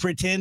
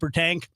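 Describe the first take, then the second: First: The word is said in its standard form. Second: The word sounds like 'per tank'. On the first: The speaker calls it right. "instead of saying pretend" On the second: The speaker calls it wrong. "he'd say per tank"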